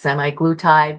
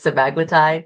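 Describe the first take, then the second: First: The second syllable sounds like 'mee'. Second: The second syllable sounds like 'muh'. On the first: The speaker calls it wrong. "Some people say it is semi-glutide" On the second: The speaker calls it right. "I think the correct pronunciation is semaglutide"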